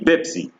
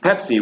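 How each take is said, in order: First: The word begins with a b sound. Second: The word begins with a p sound.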